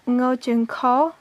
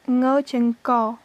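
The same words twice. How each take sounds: The two takes are said the same way.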